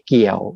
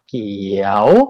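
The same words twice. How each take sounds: First: The syllable is said with the low ek tone. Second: The syllable is said with the chattawa tone. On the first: "เสียงต่ำลงเป็นเสียงเอก" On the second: "เสียงจัตวา"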